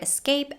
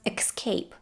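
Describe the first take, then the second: First: No K sound comes before the S. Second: A K sound comes before the S. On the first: The speaker calls it right. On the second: The speaker calls it wrong.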